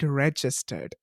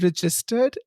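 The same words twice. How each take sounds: First: It is said with an American accent. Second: It is said with an Indian accent.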